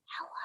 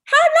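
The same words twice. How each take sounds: First: Tiny hushed hello; as quiet as possible. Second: Big, high shouted hello; as loud as possible. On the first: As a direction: say it barely audibly, for a game. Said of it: "as quiet as we can". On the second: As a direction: yell hello playfully at full volume. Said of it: "as loud as we can". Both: Shown as a demonstration.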